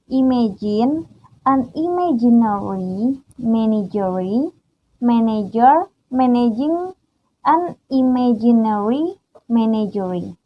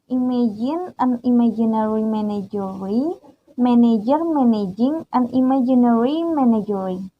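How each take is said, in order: First: It is said slowly. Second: It is said at normal speed.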